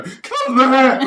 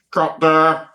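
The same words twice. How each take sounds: First: Much higher, squeaky and louder, laughing through it; mocking her own squeaky call echoing the megaphone cut, much higher; really high-pitched voice. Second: A touch higher and louder, like a first AD on a megaphone; imitating the first AD calling the cut over a megaphone, mildly raised. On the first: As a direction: squeal the cut in a tiny panicked falsetto. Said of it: "my really high-pitched voice go". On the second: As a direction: call the cut as if through a loudhailer, lightly mocked. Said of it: "go through the megaphone".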